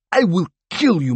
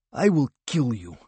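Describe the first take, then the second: First: I will kill you yelled much higher and louder, hitting kill; the threat bursts into a scream; furious shout. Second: I will kill you held tight, a touch higher, falling on you; menacing hiss. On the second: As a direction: threat kept in check, not yet shouted. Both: A narrator's reading. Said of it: "he hissed".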